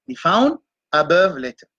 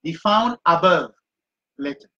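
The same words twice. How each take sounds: First: Said in the usual way. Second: Slow, deliberate "Be found above" with "found" stressed; teacher dictating notes to students; slow dictation. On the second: Shown as a demonstration. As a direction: dictate each word slowly for note-taking.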